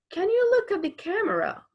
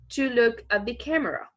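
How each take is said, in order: First: Calling out. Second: Said in the usual way. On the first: Acted. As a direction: call it out to the child. Acted command vs reported.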